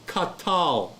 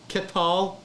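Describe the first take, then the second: First: The first vowel is a full a. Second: The first vowel is a short e. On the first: The speaker calls it wrong. "So it's katal" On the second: The speaker calls it right. "No, ketal"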